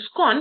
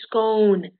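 First: The vowel is a short O sound. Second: The vowel is a long O sound. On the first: The speaker calls it wrong. "instead of saying scone" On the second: The speaker calls it right. "with a long O, as in toast"

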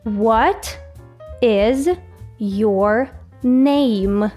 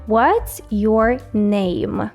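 First: "What is" is said slowly, in full. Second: "What is" is contracted to "what's". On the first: It is the official, formal way to ask. "Давайте повільно, так як має бути правильно, повною формою" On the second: It is the informal, everyday way to ask. "Це скорочена форма запитання"

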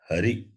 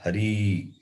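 First: The final vowel is short. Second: The final vowel is long. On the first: The speaker calls it right. "Hari is a shabda ending with the short vowel e" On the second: The speaker calls it wrong. "not hari"

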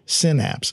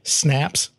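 First: The name is said with two syllables. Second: The name is said as one short syllable. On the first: "Some people say synapse" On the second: "Some people say snaps"

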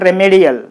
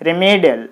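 First: The stress is on a different syllable. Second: The stress is on the second syllable. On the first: The speaker calls it wrong. "This is not remedial" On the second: The speaker calls it right. "you put the stress mark on the me, then it will be pronounced as remedial"

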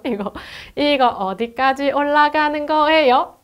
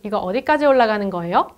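First: It uses a Busan-style pitch pattern. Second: It uses a Seoul-style pitch rising at the end. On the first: "요게 약간 부산 쪽 억양이라고 하더라고요" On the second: "서울말은"

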